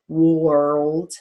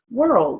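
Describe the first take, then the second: First: The vowel is said as a long O. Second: The vowel is said as a plain sound. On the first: The speaker calls it wrong. "We don't say world. It's kind of even hard to say it with a long O" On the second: The speaker calls it right. "It's just world"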